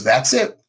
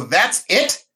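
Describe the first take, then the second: First: Low, settled answer; matter-of-fact confirmation. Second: Raised, questioning echo of surprise; disbelieving question. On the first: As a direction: confirm it calmly as the nurse, case closed. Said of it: "She goes". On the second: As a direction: ask it as if it can't be over. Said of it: "I go". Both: Retold or imitated.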